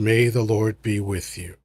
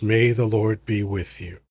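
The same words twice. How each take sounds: First: It is said in a grave, solemn tone. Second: The same.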